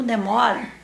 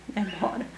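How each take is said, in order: First: Asking. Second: Said in the usual way. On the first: Shown as a demonstration.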